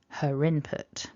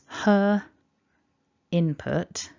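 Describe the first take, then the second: First: An R sound links her into input. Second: The two words are kept separate without an R. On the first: "but in connected speech" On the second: "what I'm saying is"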